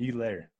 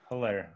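First: The name starts without an H sound. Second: The name starts with an H sound. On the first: The speaker calls it right. "do they just not pronounce the H" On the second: The speaker calls it wrong. "I've always heard it Helaire"

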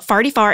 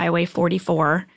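First: It is said in a St. Louis accent. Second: It is said in a standard accent.

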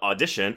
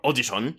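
First: It is said with an ordinary English pronunciation. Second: It is said with a put-on Japanese pronunciation.

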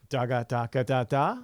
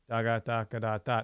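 First: It is said with lively, expressive melody. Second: It is said in a flat, bored monotone.

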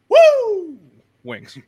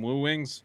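First: Woo is shouted loudly as an exclamation. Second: Woo is said calmly in a normal voice. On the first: The speaker calls it right. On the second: The speaker calls it wrong.

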